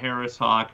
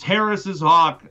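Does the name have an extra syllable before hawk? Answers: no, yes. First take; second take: no; yes. First: The name has no extra syllable before hawk. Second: The name has an extra syllable before hawk. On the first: The speaker calls it wrong. "not Harris hawk" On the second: The speaker calls it right. "I acknowledge it's Harris's hawk"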